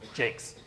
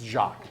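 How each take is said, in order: First: The name is said the speaker's local way. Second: The name is said as the French first name. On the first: This is how it is said where the speaker comes from. "where I come from, I pronounce it Jakes" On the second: This is how people in France say it. "that is the first name around here"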